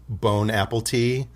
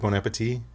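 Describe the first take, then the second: First: The end sounds like English 'apple tea'. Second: The end is said the French way. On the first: The speaker calls it wrong. "we're also out here in these streets saying bon apple tea" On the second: The speaker calls it right. "instead of bon appetit"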